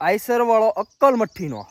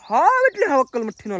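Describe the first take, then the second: First: Said in the usual way. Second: હાવ punched high and hard; stress on હાવ. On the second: Real, not acted. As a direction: hit હાવ both times, pitched up. (હાવ પર ભાર, ઊંચા સૂરે)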